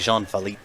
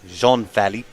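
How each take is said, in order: First: The name is said with an English accent. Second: The name is said with a French accent. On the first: The speaker calls it wrong. "can't say Jean Philippe" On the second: The speaker calls it right. "You have to get the accent in there"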